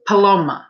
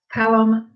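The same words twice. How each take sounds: First: "Paloma" with a long stressed middle, puh-LOH-muh; alternative pronunciation. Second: "Paloma" with stress up front, PAL-uh-muh; alternative pronunciation. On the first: Asking a viewer which name is right, "Paloma" tried as puh-LOH-muh. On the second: Asking a viewer which name is right, "Paloma" tried as PAL-uh-muh. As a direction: say "Paloma" as PAL-um, first vowel as in "pal". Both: Shown as a demonstration. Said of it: "is Paloma how you pronounce it".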